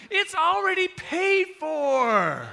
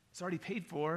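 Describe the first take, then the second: First: Very high, booming, stretched-out cashier call; acted ecstatic reveal; excited announcement. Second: Mildly unsure cashier's explanation; understated, hesitant delivery; tentative. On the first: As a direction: holler it triumphantly, holding the words long. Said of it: "they're all excited about it now". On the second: Retold or imitated. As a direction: say it small and uncertain. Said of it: "real tentative and a little bit like".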